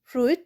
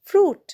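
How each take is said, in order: First: The i is sounded as an extra vowel. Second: The i is silent with no extra vowel. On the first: The speaker calls it wrong. "নয়" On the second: The speaker calls it right. "ফ্রুটেও দেখো আইটা কিন্তু উচ্চারণ হচ্ছে না"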